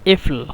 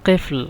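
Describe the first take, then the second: First: The word begins with a glottal stop. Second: The word begins with a deep q sound. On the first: This is the Egyptian dialect form. "আঞ্চলিক ভাষায় এফল" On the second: This is the standard form. "শুদ্ধ ভাষা কেফল"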